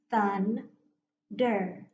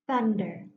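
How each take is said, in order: First: "Thunder" in two beats, Thun, pause, der; split into syllables. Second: Said in the usual way. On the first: Shown as a demonstration. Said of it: "going to go ahead and break". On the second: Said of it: "now watch".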